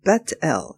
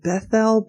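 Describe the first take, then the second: First: The middle consonant is a plain 't' sound. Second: The middle consonant is a 'th' sound. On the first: The speaker calls it right. "but Bet-El" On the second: The speaker calls it wrong. "Notice it's not Bethel"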